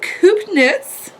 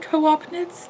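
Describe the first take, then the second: First: The first word has one syllable. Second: The first word has two syllables. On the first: The speaker calls it right. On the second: The speaker calls it wrong.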